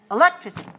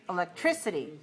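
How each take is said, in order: First: The stress is on the second syllable. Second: The stress is on the third syllable. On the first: "If it's five two" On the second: "If it's five three"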